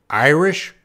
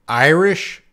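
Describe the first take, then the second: Both takes have the same delivery.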